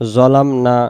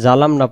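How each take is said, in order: First: The first consonant is heavy with rounded lips. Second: The first consonant is plain without lip rounding. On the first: The speaker calls it right. "জ অক্ষরের বেলায় মুখটা আওয়াজটা গোল করব" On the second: The speaker calls it wrong. "যদি আমরা জালাম না পড়ি হয় জাল হবে, নয় জা হবে, নয় জিম হবে"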